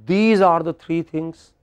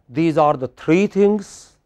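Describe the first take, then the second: First: A word other than 'three' carries the main stress. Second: The word 'three' carries the main stress. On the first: "I did not say these are the three things" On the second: "Just now I stressed three"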